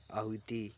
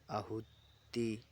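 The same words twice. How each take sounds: First: Said in the usual way. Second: आहुति drawn out very slowly, each syllable separate; slow careful spelling word. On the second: Shown as a demonstration. Teacher dictating a spelling word to students, slow and drawn out. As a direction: stretch आहुति out syllable by syllable for the class.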